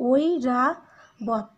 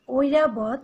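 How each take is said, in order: First: ঐরাবত very slowly split as o-i-ra-bot; broken into syllables. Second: Said in the usual way. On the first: Shown as a demonstration. Teacher breaks ঐরাবত into syllables for students. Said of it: "এখানে তিনটা syllable". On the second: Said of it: "উচ্চারণ লেখার ক্ষেত্রে তোমরা এটা লিখবে".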